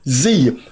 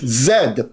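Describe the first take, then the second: First: The letter is pronounced zee. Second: The letter is pronounced zed. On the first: This is the American way. The speaker calls it wrong. "It is not Z. That's an American intrusion" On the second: This is the non-American way. The speaker calls it right. "It is Z"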